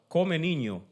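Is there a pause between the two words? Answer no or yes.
no. The two words run together without a pause. Someone is being told to eat the child.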